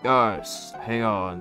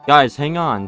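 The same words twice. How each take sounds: First: It is said in a put-on character voice. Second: It is said in a plain, normal voice. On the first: The speaker calls it right. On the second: The speaker calls it wrong.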